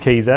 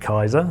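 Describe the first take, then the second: First: The first vowel sounds like 'ee'. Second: The first vowel sounds like 'eye'. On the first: The speaker calls it right. "it is called Keezer" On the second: The speaker calls it wrong. "the first stumbling block I get with everyone is pronouncing it Kaiser"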